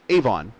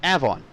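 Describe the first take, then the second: First: It is said the Indiana way. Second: It is said the New York way. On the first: "there's a town uh, just west of Lafayette that's" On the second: "in New York, it's pronounced"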